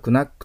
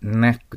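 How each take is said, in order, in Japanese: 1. k の音は n の前に発音されます。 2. この単語は n の音から直接始まります。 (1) "クナックと読まないように" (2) "K とN が一緒になるとK の発音がね、消えます"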